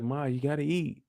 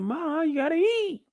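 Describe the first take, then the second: First: Said in the usual way. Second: High, put-on imitation of Diana; squeaky mimic of the daughter; high mock girl voice. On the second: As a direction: pitch it way up like a pleading girl. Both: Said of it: "She said".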